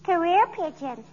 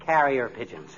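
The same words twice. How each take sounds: First: "Career" said like the word career, not carrier; slowly, "Career pigeons" with career for carrier; childish mispronunciation. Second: "Carrier" said properly as carry-er, set right; firmly fixing "Carrier" as carry-er; correcting the word. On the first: Little girl explaining her neighbour's birds, mispronouncing "Career". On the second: [name] correcting the girl's word, saying "Carrier" properly. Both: Acted.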